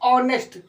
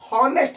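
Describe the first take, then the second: First: The word starts directly with a vowel sound. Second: The word starts with an audible h sound. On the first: This is how the word is actually read. "लेकिन पढ़ते ऑनेस्ट" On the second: This is how the word is spelled. "लिखते हॉनेस्ट"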